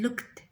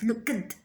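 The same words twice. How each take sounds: First: The ending is said as a plain t sound. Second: The ending is said as an extra syllable. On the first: The speaker calls it right. "It's like T" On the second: The speaker calls it wrong. "it is not right in English to pronounce this word as looked"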